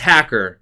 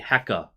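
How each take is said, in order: First: The final R sound is pronounced. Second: The final R sound is dropped. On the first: The speaker calls it wrong. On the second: The speaker calls it right.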